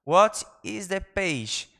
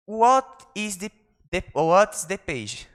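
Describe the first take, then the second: First: Very slow, careful clean take; slow clean retake. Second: Fumbled model take. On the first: Teacher redoing the phrase for students, slowly. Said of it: "vamos lá de novo". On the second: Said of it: "Sorry, perdão, vamos lá de novo". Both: Shown as a demonstration.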